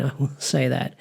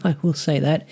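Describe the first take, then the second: First: Quieter chuckle, words trailing off softer; soft laughing aside. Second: Amused chuckle then the words; laughing aside. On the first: Vlogger laughing again at the monster's insane face, softer and amused. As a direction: laugh it off under the breath. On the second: Vlogger laughing at the crumpet monster's scary face, amused. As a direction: laugh it off lightly. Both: Real, not acted.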